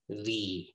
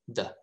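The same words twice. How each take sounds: First: The vowel is full and long, like 'thee'. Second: The vowel is short and reduced, like 'thuh'. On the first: "you have to pronounce this word as the" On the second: "That's the weak pronunciation"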